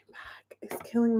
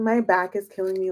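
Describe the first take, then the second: First: Whispered, no voice at all. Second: Said in the usual way. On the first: Real, not acted. Whispering to viewers about her aching back. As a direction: breathe it out as a pained whisper.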